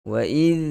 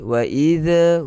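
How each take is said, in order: First: The final consonant ends with no vowel after it. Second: A vowel sound is released after the final consonant. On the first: The speaker calls it right. "jangan lepaskan suara" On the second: The speaker calls it wrong. "huruf mati zal ini tak perlu kita lepaskan suara"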